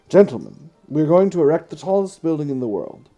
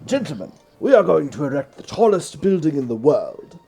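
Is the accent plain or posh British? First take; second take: plain; posh British. First: It is read in a plain everyday accent. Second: It is read in a posh British accent.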